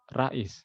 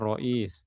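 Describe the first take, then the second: First: The r and vowel are light and thin. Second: The r and vowel are heavy and thick. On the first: The speaker calls it wrong. "Seperti ada yang panggil Rais" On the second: The speaker calls it right. "Harusnya Rois, ya. Tebal rohnya"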